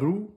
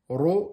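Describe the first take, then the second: First: The syllable is light, with a close u. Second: The syllable is heavy, with an open o. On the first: The speaker calls it wrong. "et pas rou" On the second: The speaker calls it right. "en fatigue. Ro et pas rou"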